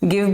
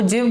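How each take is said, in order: First: The word begins with a hard G sound. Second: The word begins with a soft J sound. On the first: The speaker calls it right. "गिव बोलते हैं" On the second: The speaker calls it wrong. "जी के बाद आए है तो वो जिव बोलना चाहिए"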